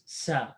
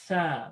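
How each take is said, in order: First: It starts with an s sound. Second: It starts with a th sound. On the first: The speaker calls it wrong. "we just pronounce it like this" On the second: This is the Arabic pronunciation. The speaker calls it right. "The tongue must come out"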